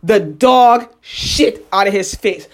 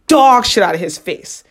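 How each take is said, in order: First: Drawn-out, deliberate repeat; slow emphasis. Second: Said in the usual way. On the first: Real, not acted. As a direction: spell out "dog shit out of his face" slowly for effect.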